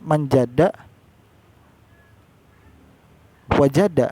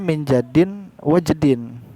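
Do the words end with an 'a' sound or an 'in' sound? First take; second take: a; in. First: The words end with an 'a' sound. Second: The words end with an 'in' sound. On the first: The speaker calls it right. "Harus kan menjada wajada" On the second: The speaker calls it wrong. "di sini malah tulisannya menjadin wajedin"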